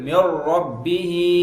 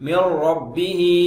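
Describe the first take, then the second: The two takes are said the same way.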